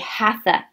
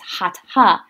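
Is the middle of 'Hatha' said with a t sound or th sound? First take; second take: th sound; t sound. First: The middle consonant is an English th sound. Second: The middle consonant is a t sound, no th. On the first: The speaker calls it wrong. "You hear a lot of people in the West say Hatha Yoga" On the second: The speaker calls it right. "the T-H does not make the th sound. It's Hatha Yoga"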